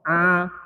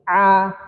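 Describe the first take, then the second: First: The sound comes out through the nose. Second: The sound comes out through the mouth. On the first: The speaker calls it wrong. "ini suara ain yang dari hidung" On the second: The speaker calls it right. "tidak dari hidung, keluarnya dari mulut, sempurna"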